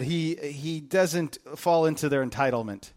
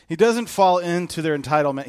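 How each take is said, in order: First: Said in the usual way. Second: "doesn't" hit hard, whole line louder; preacher hammering the point home, "doesn't" stressed; emphatic repeat. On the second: Shown as a demonstration. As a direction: drive home "doesn't" with force. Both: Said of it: "repeated for emphasis".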